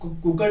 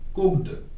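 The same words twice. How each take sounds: First: The ending is said as a separate extra syllable. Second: The ending is a short t sound, one syllable. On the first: The speaker calls it wrong. "कुकड नहीं बोलेंगे" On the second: The speaker calls it right. "क्या pronounce करेंगे"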